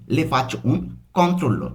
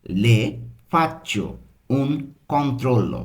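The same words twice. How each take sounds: First: Said quickly. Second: Slow Italian, pausing between word groups; slow learner's pace. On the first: Teacher showing learners the doctor's line said quickly, run together. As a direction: run together without breaks. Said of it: "তাড়াতাড়ি যদি বলি". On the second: Teacher giving learners the doctor's line, slowly in separate pieces. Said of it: "আমরা কিন্তু যে স্লোভাবে শিখছি". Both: Shown as a demonstration.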